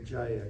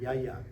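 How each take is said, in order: First: The word begins with a J sound. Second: The word begins with a Y sound. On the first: "you can't say Jaya"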